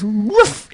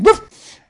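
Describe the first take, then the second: First: Small high yip of a puppy; puppy bark. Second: Much higher, louder yip, like a puppy barking back. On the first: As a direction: imitate a tiny puppy's bark, higher. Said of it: "in his puppy bark". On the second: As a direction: bark it back sharp and high like a bold puppy. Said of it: "barked again". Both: Retold or imitated.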